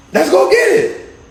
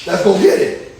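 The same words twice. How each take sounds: First: Higher, slower, pumped-up repeat; rally yourself to go; hyped-up Joshua. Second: Said in the usual way. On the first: Retold or imitated. Joshua answering God, quoted.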